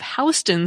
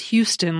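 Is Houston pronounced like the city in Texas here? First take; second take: no; yes. First: It is not pronounced like the Texas city. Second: It is pronounced like the Texas city. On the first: The speaker calls it right. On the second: The speaker calls it wrong.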